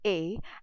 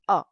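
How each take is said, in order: First: The letter is said with an English pronunciation. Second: The letter is said with a French pronunciation. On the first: "In English, we call it as A" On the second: "in French, it is A"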